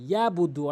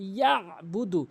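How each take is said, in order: First: The throat sound 'ain' is left out. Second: The throat sound 'ain' is clearly pronounced. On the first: The speaker calls it wrong. "অধিকাংশ লোক ভুল যেটি করে সেটি হচ্ছে ইয়াবুদু, অর্থাৎ আইনের উচ্চারণ এখানে করেই না" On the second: The speaker calls it right. "আইনের উচ্চারণ করতে হবে"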